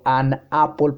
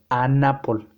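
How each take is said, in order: First: The n and the a are said separately. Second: The n runs straight into the a. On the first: The speaker calls it wrong. "yo no digo an apple" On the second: The speaker calls it right. "estoy juntando la N y la A"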